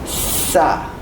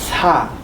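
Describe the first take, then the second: First: The s sound is strong and tense. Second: The s sound is soft and light. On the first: "when you pronounce this doubled doubled S sound, it is sa" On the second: "It was sa"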